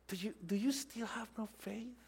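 It is said in a gentle, compassionate tone. The listeners are being cared for. The speaker calls it right. "It was a tone of compassion"

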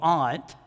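It is said in a posh, refined accent.

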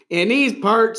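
It is said with a drawling country twang.

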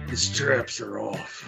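It is said in a crude, vulgar manner. "more like vulgar"

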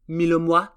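The name is pronounced in a French way.

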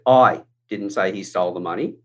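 The word 'I' is stressed. Someone else said it. "it's talking about me. I wasn't the one who said it. Somebody else did"

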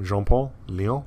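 The name is said with French pronunciation. The speaker calls it wrong. "I thought he was French"

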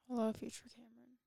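It is said in a gloomy, flat tone.

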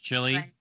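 The name is said with an American English pronunciation. "just right. American English"

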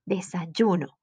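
The y sound is strong and firm. This is the speaker's own way of saying it. "like stronger"

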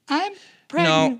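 It is said in a put-on girl voice.

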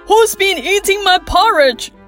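It is said in a growling bear voice.

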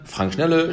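The name is said in a cheerful, upbeat tone. The caller gets a friendly, motivated greeting. The speaker calls it right. "Also ich bin gut drauf"

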